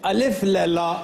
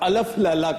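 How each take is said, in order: First: An i vowel is heard between L and F. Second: An a vowel is heard between L and F. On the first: "दोनों गलत हैं" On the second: "दोनों गलत हैं"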